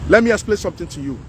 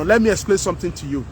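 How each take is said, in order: First: "Let me explain something to you" rushed out faster; faster repeat. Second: Said in the usual way. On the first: Real, not acted. Vlogger presses his point on viewers, faster. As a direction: hurry the repeat, pushing on.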